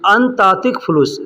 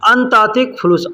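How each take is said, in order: First: The first two words are run together. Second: The same.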